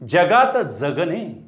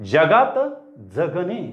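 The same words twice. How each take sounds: The two takes are said the same way.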